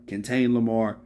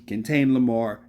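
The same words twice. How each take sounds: The two takes are said the same way.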